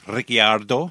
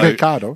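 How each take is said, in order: First: The name is said in an Italian-style way. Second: The name is said in an anglicized Australian way. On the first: This is how the name should properly be said. "It should be Ricciardo" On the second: This is how the name is commonly said locally. "even though Ricciardo"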